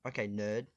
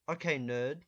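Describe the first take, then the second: First: It is said flatly with no emotion. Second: It is said with noticeable emotion. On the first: The speaker calls it right. "zero emotion into everything you say" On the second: The speaker calls it wrong. "I said that wrong"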